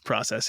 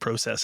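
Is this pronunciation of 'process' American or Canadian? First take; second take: American; Canadian. First: The word is said with an American pronunciation. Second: The word is said with a Canadian pronunciation. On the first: "instead of process here" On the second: "you're Canadian. ... I got to start saying process"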